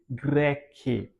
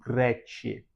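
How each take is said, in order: First: The c is said as a hard k. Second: The c is said like a ch sound.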